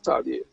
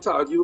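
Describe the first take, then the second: First: The name is said the common local way. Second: The name is said the original French way. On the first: This is how everyone actually says it. "It's French Creole, so it's Tardier" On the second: This is the original form few people use now. "We used to say Tardieu, but nobody's really say Tardieu"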